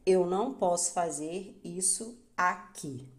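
The stress is on the word aqui. It is a statement about environment. "Quando aqui é enfatizado"

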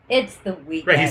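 It is said in a tired, weary way. The week has been draining and rest is needed. "he's somewhat exhausted in it"

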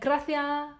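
It is lisped with the final S cut.

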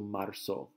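The z is pronounced as an s sound. This is the usual pronunciation in most countries. "the Z makes an S sound, so marzo in other countries"

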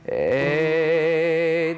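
The voice is solid with strong resonance. "the chords are together. That gives me more sound"

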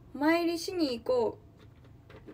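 It uses a regional, dialect-like intonation. The speaker calls it wrong. "変な方"

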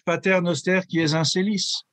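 The Latin is pronounced with French sounds. This is the older French custom. "Or in French"

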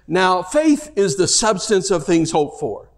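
The word 'faith' carries the main stress. 'Now' simply introduces the statement. "One is to read the way we normally do, and it's probably the grammatically correct"

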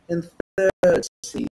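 It is said in a British accent.

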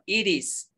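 It is said in an American accent.

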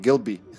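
It is run together as one name. It is a single name.

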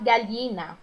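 The double L sounds like a palatal lh. "como se fosse um LH"

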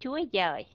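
The second word begins with a gi sound. This is the northern pronunciation. "người miền Bắc về sau này đọc ra là"

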